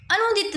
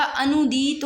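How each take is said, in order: First: "अनुदित" with short vowels; rejected pronunciation. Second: "अनुदीत" slow, with stretched vowels; corrected pronunciation. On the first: Teacher showing students the error, "अनुदित" kept short. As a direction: clip the u and i in "अनुदित". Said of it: "अनुदित नहीं होता". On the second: Teacher giving the correction, "अनुदीत" slowly drawn out. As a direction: draw out "अनुदीत". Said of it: "अनुदीत होता है". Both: Shown as a demonstration.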